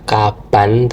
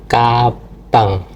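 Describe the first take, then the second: First: The word ends with a plain n sound. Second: The word ends with an ng sound. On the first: The speaker calls it wrong. "Bukan dibaca kaban" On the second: The speaker calls it right. "tapi kabang"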